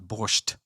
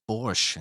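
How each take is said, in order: First: The word ends with a T sound. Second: The word ends without a T sound. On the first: The speaker calls it wrong. "not uh, not borscht" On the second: The speaker calls it right. "You don't pronounce the T. I'm pretty sure it's just borscht"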